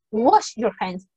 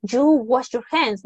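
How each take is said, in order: First: Said in the usual way. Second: Slow "You wash your hands", the wrong form; wrong, with "you" in front. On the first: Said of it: "You say". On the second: Shown as a demonstration. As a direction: spell out the mistake with "You" first, slowly. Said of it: "You don't say". ("You wash your hands" lento, forma incorrecta)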